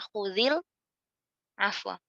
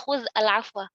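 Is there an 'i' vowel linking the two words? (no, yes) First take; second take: yes; no. First: The words join with a linking 'i' vowel. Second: The words join with no linking 'i' vowel. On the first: The speaker calls it right. "Dikasihkan harokat huruf pertamanya" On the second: The speaker calls it wrong. "nggak mungkin kita baca"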